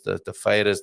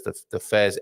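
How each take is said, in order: First: "feiras" said the Portuguese way, tapped r, FAY-rash; Portuguese word. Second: "fairs" in plain English, one syllable; English gloss. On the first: Host names Portuguese fairs for viewers, Portuguese pronunciation. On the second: Host glosses the word for viewers in plain English. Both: Shown as a demonstration.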